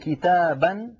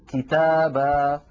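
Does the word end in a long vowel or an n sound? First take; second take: n sound; long vowel. First: The word ends with a short vowel and n. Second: The word ends with a vowel held two counts. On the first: The word is said while continuing without a stop. "بدل أن يقولوا كتابا" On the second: The word is said at a stop. "عند الوقف يقولون كتابا"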